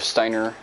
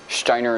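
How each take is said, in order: First: It is said with a plain English pronunciation. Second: It is said with a German-sounding pronunciation.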